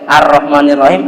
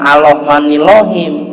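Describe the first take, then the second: First: The letter R is pronounced as a clear R. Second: The letter R is pronounced like an L. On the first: The speaker calls it right. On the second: The speaker calls it wrong.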